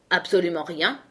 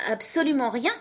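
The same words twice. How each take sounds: First: Mildly pressing question, rising at the end; insistent. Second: Higher voice, lifting on "rien"; high reply. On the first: King questioning Alice about the case, mildly insistent. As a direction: press gently for confirmation. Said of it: "insista le roi". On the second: Alice answering the king's question, high-voiced. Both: A narrator's reading.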